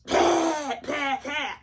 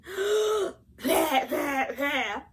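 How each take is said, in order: First: Loud mock hacking, no breath first; coughing without inhaling. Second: Big gasp, then loud mock coughs; coughing with an inhale. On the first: Wife imitating husband's coughing fit, loud hacks with no intake of air. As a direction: imitate coughs bursting straight out, the first one highest. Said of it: "He didn't inhale first". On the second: Shown as a demonstration. Wife showing how a normal cough starts, gasp then loud fake hacking. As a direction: suck in air, then hack it out in bursts. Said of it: "But rather than going".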